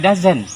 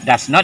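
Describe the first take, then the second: First: The words are contracted into one short word. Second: Both words are said fully and separately.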